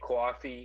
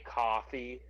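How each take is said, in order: First: It is said with a New York accent. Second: It is said with a general American accent. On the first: "I say coffee even though I'm not from New York" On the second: "other people might say coffee"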